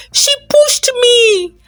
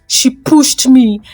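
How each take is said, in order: First: Much higher, ringing repeat of the charge; loud accusation. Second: Firm, slow accusation, a touch louder; said loudly. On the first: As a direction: cry it out so the whole crowd hears. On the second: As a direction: slowly lay the charge. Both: A narrator's reading. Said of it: "Jasmine said loudly".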